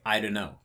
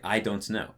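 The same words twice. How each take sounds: First: The syllables are slurred and run together. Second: Every syllable is pronounced fully and separately. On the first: The speaker calls it right. "Whereas I would just say" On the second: The speaker calls it wrong. "they actually pronounce too many things"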